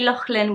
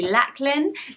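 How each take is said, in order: First: The middle sound is a throaty, breathy 'ch'. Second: The middle sound is a plain hard 'k'. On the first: "with a loch, like the Scottish Loch Lomond" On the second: "but it can also be"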